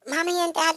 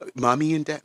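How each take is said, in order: First: It is said in an imitated put-on voice. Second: It is said in the speaker's normal voice.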